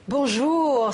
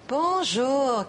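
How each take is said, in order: First: The greeting sounds warm and friendly. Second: The greeting sounds scornful and contemptuous. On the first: The speaker is pleased the listener is here. "c'est bon de te voir" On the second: The speaker thinks the listener is a fool. "quel imbécile"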